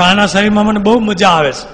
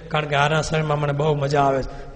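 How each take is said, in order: First: Loud, high, stressing બહુ hard; gleeful demon. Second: Said in the usual way. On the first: Acted. Demon telling Maharaj why he stays, loud and high. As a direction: revel in it. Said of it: "તો કે". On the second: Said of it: "બ્રહ્મ રાક્ષસ કે".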